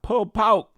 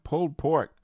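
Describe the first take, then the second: First: It is said in a Southern accent, nearly one syllable. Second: It is said in a standard accent.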